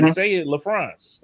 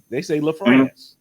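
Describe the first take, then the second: First: "LaFrance" said slowly, the right way; how it should be said. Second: "LaFrance" said slowly, la-FRANCE; how others say it. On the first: Explaining his own name, gives the right LaFrance. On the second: Explaining his own name, says how people pronounce LaFrance. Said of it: "You know how we spell my name?". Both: Shown as a demonstration.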